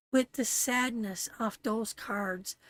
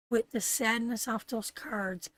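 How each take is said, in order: Both takes have the same delivery.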